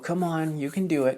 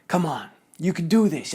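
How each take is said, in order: First: It is said in a soft, gentle tone. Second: It is said in a harsh, demanding tone.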